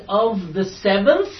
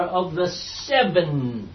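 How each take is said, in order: First: "seventh" with the TH sounded out at the end; stressed final TH. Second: "seven" drawn out slowly, ending on N; questioning "seven", long final N instead of TH. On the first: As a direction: slowly say "seventh", landing on a clear TH. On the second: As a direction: stretch "seven" with no TH on the end. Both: Shown as a demonstration. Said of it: "T H, or of the seven".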